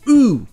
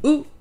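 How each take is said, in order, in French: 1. La voyelle est tenue longtemps. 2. La voyelle est coupée court. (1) "La version longue" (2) "la version courte"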